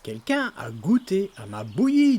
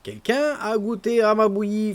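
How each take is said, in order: First: It is said in Papa Bear's deep, gruff voice. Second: It is said in Mama Bear's medium voice.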